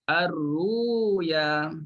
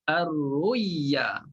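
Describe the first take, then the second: First: The middle consonant sounds like w. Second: The middle consonant sounds like y. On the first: "Kalau kita nak baca dengan wajah izhar, dia kena tukar jadi huruf waw" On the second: "ditukarkan menjadi huruf ya bila tuan-tuan dan puan nak baca wajah idgham"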